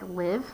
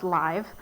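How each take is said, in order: First: The vowel is a short i sound. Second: The vowel is a long i sound. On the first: "it's like live" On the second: "but it's live"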